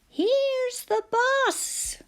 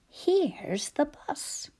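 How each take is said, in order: First: It is said excitedly, with urgency. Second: It is said flatly, without excitement.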